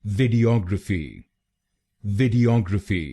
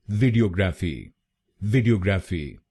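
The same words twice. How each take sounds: First: वीडियोग्राफी as vid-ee-OG-ruh-fee, reduced "ruh"; correct pronunciation. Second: वीडियोग्राफी with a full "ra" and flat "o", vee-dee-o-graa-fee; the common Indian mispronunciation वीडियोग्राफी, each syllable even; wrong Indian way. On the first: Teacher giving the correct model: वीडियोग्राफी as vid-ee-og-ruh-fee. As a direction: say वीडियोग्राफी with an open "og" and a weak middle. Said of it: "इसकी सही pronunciation है". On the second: Teacher demonstrating the common wrong way: वीडियोग्राफी said vee-dee-o-graa-fee. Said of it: "काफी लोग गलत pronounce करते हैं".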